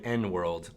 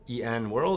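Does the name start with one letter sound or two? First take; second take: one; two. First: The name starts with one letter sound, N. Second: The name starts with two letter sounds, E and N. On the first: "pronouncing the N as if it was done on its own" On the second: "do you say E N World"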